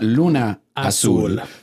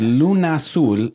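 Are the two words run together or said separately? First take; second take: separately; run together. First: The two words are said as separate words. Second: The two words run together as one word. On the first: The speaker calls it wrong. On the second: The speaker calls it right.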